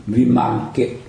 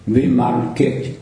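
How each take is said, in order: First: Said in the usual way. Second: "Vimalkirti" drawn out slowly, syllable by syllable; careful pronunciation. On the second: Shown as a demonstration. Teacher showing students how the name is written, slow careful demo. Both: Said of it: "người ta viết là".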